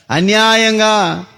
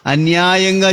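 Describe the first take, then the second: First: Slow, stretched cry of injustice; drawn-out wail. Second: Said in the usual way. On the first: Acted. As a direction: drag the word out like a lament. Abel's blood cries to God. (అన్యాయంగా అని నెమ్మదిగా సాగదీసిన ఆర్తనాదం)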